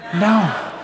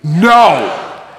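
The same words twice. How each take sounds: First: It is said cheerfully, with a smile. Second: It is said firmly, with authority.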